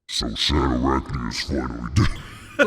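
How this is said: It is said in an artificially pitch-shifted voice.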